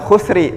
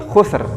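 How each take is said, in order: First: The word ends with an added 'i' vowel. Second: The word ends on the r consonant. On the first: The speaker calls it wrong. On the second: The speaker calls it right.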